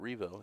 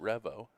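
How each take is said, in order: First: The start does not sound like 'revolution'. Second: The start sounds like the start of 'revolution'. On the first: The speaker calls it right. "and not Revo" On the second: The speaker calls it wrong. "the reason you've chosen to pronounce it Revo ... is it's based on a revolution"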